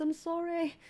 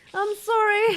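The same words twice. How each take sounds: First: Said in the usual way. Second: Louder, higher sorry; loud apology. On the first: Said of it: "repeated apology". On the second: Real, not acted. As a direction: call out the apology. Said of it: "repeated apology, louder".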